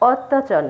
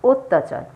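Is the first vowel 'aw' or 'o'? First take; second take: aw; o. First: The first vowel is an open 'aw' sound. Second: The first vowel is a closed 'o' sound. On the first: The speaker calls it wrong. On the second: The speaker calls it right.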